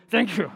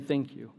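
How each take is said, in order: First: Forced, abrupt thank you, played for laughs; mock frustrated thanks. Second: Said in the usual way. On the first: Frustrated driver thanking God in the car, comically exasperated. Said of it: "I was frustrated". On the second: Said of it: "just stopping and saying".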